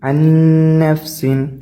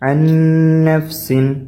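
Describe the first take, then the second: Both takes have the same delivery.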